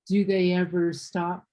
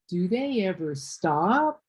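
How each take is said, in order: First: The voice falls at the end. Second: The voice rises at the end. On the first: "Instead of" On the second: "My voice went up on stop"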